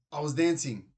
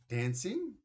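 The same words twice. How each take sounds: First: Sudden louder blurt. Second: High, rising disbelief; not buying it for a second; mother doubting her son's excuse, rising in disbelief; doubtful question. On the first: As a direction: blurt it out before you can think. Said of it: "he blurted out". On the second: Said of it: "Mum didn't look convinced". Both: A narrator's reading.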